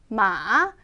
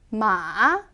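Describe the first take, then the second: First: The pitch is low, dipping then rising. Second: The pitch is low, dipping then rising.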